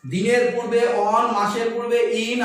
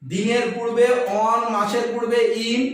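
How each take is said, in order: Both takes have the same delivery.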